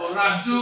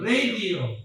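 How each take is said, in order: First: It is said with a Tagalog-style pronunciation. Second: It is said with an English-style pronunciation. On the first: The speaker calls it wrong. "hindi kayo magsasabi ng o radyo" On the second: The speaker calls it right. "Yan ang bigkas natin"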